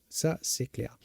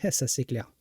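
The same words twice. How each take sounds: First: Said in the usual way. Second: Laughing. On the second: Real, not acted. Chuckling reply to a chat remark.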